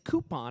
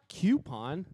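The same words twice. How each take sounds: First: The first syllable sounds like 'coo'. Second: The first syllable sounds like 'kyoo'. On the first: The speaker calls it right. "it's coupon" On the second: The speaker calls it wrong. "It's not coupon"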